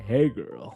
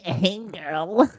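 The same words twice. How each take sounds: First: The voice is low and deep. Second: The voice is thin and nerdy. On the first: The speaker calls it right. "someone with a deeper voice" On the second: The speaker calls it wrong. "imagine you're getting catcalled by like this like nerd"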